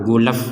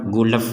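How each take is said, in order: Both takes have the same delivery.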